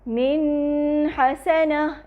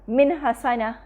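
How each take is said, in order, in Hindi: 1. नून की आवाज़ लंबी खिंचती है और नाक से निकलती है। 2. नून की आवाज़ को अचानक रोक दिया जाता है। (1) "यानी नून का गुन्ना लंबा नहीं करेंगे" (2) "ना ही हम इसको एकदम रोक के पढ़ेंगे"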